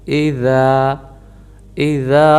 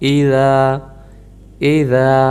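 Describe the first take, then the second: Both takes have the same delivery.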